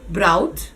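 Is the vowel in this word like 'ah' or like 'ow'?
ow. The vowel is pronounced as an 'ow' sound. The speaker calls it wrong. "if I were a student from Venezuela or a Spanish speaker, this is how you would probably pronounce it"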